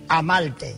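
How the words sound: The r is said as an l, Puerto Rican style.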